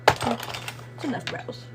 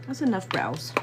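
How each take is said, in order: First: Whisper. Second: Said in the usual way. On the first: Acted. Repeated slowly in a whisper.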